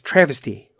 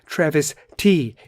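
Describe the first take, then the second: First: The two parts run together quickly as one word. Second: The two parts are said slowly and separately.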